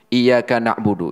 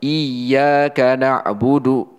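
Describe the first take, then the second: First: The y in iyyaka is said short, single. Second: The y in iyyaka is held long, doubled. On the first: The speaker calls it wrong. "enggak dibaca tasydidnya" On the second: The speaker calls it right. "Yang betul seperti apa?"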